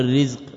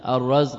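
First: The first vowel is i, as in rizq. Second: The first vowel is a, as in razq. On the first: It names the thing that is provided. The speaker calls it wrong. "ولا تقل الرزق" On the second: It names the act of providing. The speaker calls it right. "بفتح الراء"

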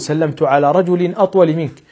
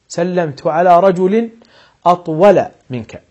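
First: The word 'atwal' ends with an -in sound. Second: The word 'atwal' ends with an -a sound. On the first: The speaker calls it wrong. "ولا تقول" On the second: The speaker calls it right. "فتقول مثلا"

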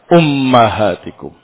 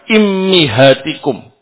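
First: The first two vowels are u and a. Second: The first two vowels are i and i. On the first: "alifnya di dhammah dan mimnya di fathah" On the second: "Hamzahnya atau alifnya di kasrah, mimnya di kasrah juga"

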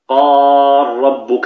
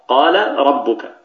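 First: The l merges into one doubled r sound. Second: The l is voiced with a vowel before the r. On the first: "ثم ندغم قال ربك ... فهنا ننطق براء مشددة" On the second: "هنا الحرفان متحركا"

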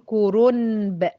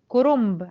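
First: An n sound comes right before the b. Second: An m sound comes right before the b. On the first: The speaker calls it wrong. "كورونب صعبه، صعبه في النطق" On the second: The speaker calls it right. "بنحول النون لميم من غير ما نقصد"

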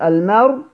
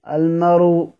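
First: The final consonant ends with no vowel at all. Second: The final consonant ends with a faint, partial vowel. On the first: "السكون" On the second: "الروم"

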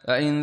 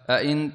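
First: The second glottal stop is softened. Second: Both glottal stops are fully pronounced. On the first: "بتخفيف الهمزة الثانية" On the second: "بتحقيق الهمزتين"

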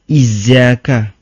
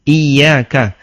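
First: The middle consonant is a z sound. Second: The middle consonant is a y sound. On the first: The speaker calls it wrong. "Anda salah" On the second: The speaker calls it right. "Ini ya bukan za"

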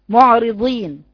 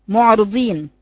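Both takes have the same delivery.

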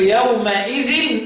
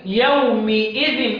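First: The m sound carries an a vowel. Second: The m sound carries an i vowel. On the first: This is one accepted reading of the word. "مين اللي قراها كده بالفتح؟" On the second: This is the other accepted reading of the word. "والباقي"

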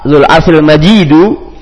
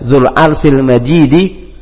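First: The last word ends with a u vowel. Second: The last word ends with an i vowel. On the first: The glory describes God. "kalau dibaca rafa" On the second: The glory describes the throne. "kalau dibaca jar"

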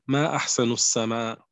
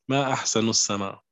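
Both takes have the same delivery.

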